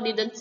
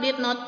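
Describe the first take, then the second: First: The two words are shortened into one syllable. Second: The two words are said separately and fully.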